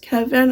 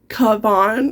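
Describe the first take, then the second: First: The name is said as ordinary Kevin. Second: The name is said with 'a' vowels, Kavan. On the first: The speaker calls it right. "I'm guessing it's still pronounced Kevin" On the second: The speaker calls it wrong. "and not Kavan. Like that"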